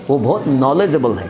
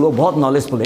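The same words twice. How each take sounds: First: knowledgeable ending in "-able", said low; corrected word form. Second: नॉलेजफुल ending in "-ful", said low; mistaken word form. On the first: Teacher correcting learners' mistake, low-pitched model knowledgeable. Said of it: "नहीं, क्या बोलना है?". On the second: Teacher quoting learners' common mistake, low-pitched mistaken नॉलेजफुल. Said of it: "कई लोग गलती से क्या करते हैं". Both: Shown as a demonstration.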